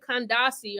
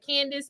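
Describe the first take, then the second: First: The name has an African pronunciation, Kandasi. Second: The name sounds like the English name Candace. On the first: The speaker calls it right. "but it's really Kandasi, all right? It's an African pronunciation" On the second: The speaker calls it wrong. "it's easy for us to say like Candace"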